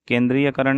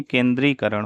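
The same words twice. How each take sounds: First: केंद्रीयकरण with "ya" before karan; extra ya syllable. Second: केंद्रीकरण going from dree to karan; no ya syllable. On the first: Teacher showing the mistake, केंद्रीयकरण with extra ya. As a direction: insert ya in केंद्रीयकरण. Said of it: "केंद्रीयकरण नहीं". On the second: Teacher correcting the word, केंद्रीकरण without ya. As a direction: drop the ya in केंद्रीकरण. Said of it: "य नहीं रहेगा इसमें". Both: Shown as a demonstration.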